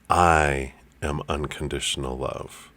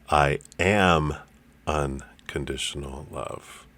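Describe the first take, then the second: First: The word "I" is stressed. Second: The word "am" is stressed.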